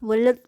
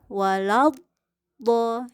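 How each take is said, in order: First: The L sound merges into the following consonant. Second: The L sound is heard clearly and separately. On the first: The speaker calls it wrong. "lam itu bisa melebur ke dalam do ... terucapnya bisa jadi walad" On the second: The speaker calls it right. "la itu harus jelas karakternya ... tidak saling mempengaruhi"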